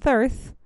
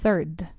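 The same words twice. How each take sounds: First: The word ends without a clear d sound. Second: The word ends with a clear d sound. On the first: The speaker calls it wrong. "No es 3rd" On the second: The speaker calls it right. "3rd finishes with a D, like Denmark"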